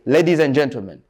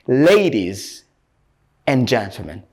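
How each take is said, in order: First: The words are said loosely, without much care. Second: The words are said carefully, with clear vowels. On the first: The speaker calls it wrong. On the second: The speaker calls it right.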